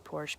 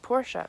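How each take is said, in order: First: The name ends without a final vowel sound. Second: The name ends with a final vowel sound. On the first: "you don't pronounce the E at the end of a word" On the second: "you pronounce the E at the end"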